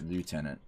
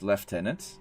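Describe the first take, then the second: First: It is said the American English way. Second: It is said the British English way. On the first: "Americans pronounce it lieutenant" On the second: "in English, it's lieutenant"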